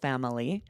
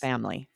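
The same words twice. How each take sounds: First: The word is said with three syllables. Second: The word is said with two syllables. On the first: "some people will pronounce this three syllables" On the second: "a lot of people drop that third syllable"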